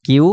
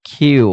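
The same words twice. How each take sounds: First: Said in the usual way. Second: কিউ slowly, with an aspirated k; corrected letter name. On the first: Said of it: "এটাকে আমরা বলতাম কিউ". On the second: Shown as a demonstration. Teacher correcting the letter Q for students. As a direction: drag out কিউ and breathe on the k. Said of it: "but এটা হবে কিউ".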